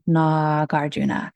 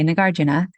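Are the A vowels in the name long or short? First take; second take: long; short. First: Both A vowels in the name are long. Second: The A vowels in the name are short. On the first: This follows the Sanskrit transliteration. "both of the A's would be long" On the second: This is how the speaker's family says it. "in my family, we would say"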